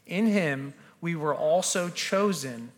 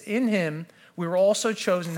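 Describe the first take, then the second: First: It is read at a slow pace. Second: It is read at a fast pace. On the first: "I'm going to slow down" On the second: "I read that really fast"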